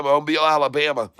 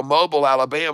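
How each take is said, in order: First: "Mobile" ending in a long -beel. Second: "Mobile" with a short, unstressed -bul ending. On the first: Repeats it with the other pronunciation. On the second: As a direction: say "Mobile" as MO-bul, stress first. Says the place name two ways. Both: Real, not acted.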